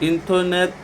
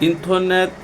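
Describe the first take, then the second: Both takes have the same delivery.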